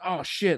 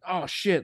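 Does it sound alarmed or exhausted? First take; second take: alarmed; alarmed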